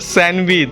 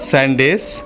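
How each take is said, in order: First: The word ends with a 'wich' sound. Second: The word ends with a plain 's' sound. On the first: The speaker calls it right. "বলো স্যান্ডউইচ।" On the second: The speaker calls it wrong. "স্যান্ডেস না"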